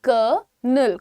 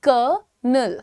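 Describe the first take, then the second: The two takes are said the same way.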